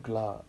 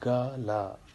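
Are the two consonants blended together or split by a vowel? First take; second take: blended; split. First: The g and l blend with no vowel between. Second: A vowel separates the g from the l. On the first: The speaker calls it right. "it became gla" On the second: The speaker calls it wrong. "not ga la"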